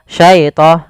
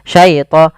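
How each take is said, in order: No difference in how they are said.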